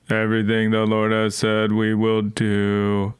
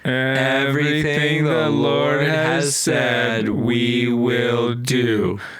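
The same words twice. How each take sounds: First: It is said in a robotic, zombie-like voice. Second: It is said in a natural voice.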